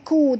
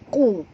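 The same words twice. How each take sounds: First: The k sound is light and thin. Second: The k sound is heavy, from the throat. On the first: The speaker calls it wrong. "Jangan baca ku" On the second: The speaker calls it right. "ku di sini tebal"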